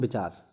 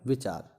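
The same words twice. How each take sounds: First: The word begins with a b sound. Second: The word begins with a v sound. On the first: The speaker calls it wrong. "बहुत से लोग बोलते हैं विचार ... ये गलत है" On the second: The speaker calls it right. "सही शब्द क्या होता है, विचार"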